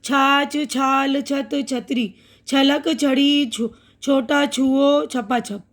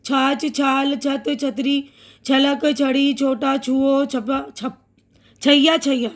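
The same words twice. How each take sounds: First: Slow and careful. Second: Fast reading. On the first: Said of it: "अब यहाँ छ की आवाज़". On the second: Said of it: "अब तेज़ बोलती हूँ जल्दी जल्दी". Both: Shown as a demonstration.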